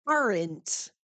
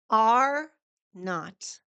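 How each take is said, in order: First: "aren't" run together as one falling word; contraction. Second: "Are not" as two words with a pause between; uncontracted form. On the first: Teacher showing learners the contraction, "aren't" as one word. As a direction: join are and not into "aren't", no gap. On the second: Teacher showing learners the full form, "Are not" split in two. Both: Shown as a demonstration. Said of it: "Are not is the same as".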